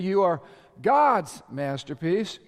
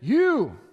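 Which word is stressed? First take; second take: God's; You. First: The stress is on "God's". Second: The stress is on "You".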